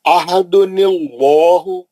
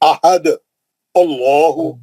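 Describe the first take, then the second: First: The words run together with an added n sound. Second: It stops on a bouncing d, then restarts. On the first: "मिला के पढ़ने के वास्ते इसके अंदर से नून निकाले" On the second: "अगर आप यहाँ रोक दिया"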